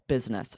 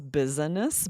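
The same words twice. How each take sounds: First: The word is said with two syllables. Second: The word is said with three syllables. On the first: "we really usually pronounce this two syllables" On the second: "really is three syllables"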